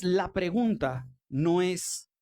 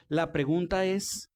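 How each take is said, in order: First: Slow, leaning hard on "pregunta" before "no es"; preacher stretching "pregunta" to set up the turn; stress on pregunta. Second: Slow, "pregunta" pressed, pause after "es"; stress on pregunta. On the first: Preacher framing the real question, slow stress on "pregunta". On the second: Preacher to congregation, slow stress on "pregunta". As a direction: land "La pregunta es" deliberately. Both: Shown as a demonstration.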